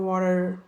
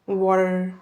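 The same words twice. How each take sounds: First: It is said in an American accent. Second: It is said in an American accent.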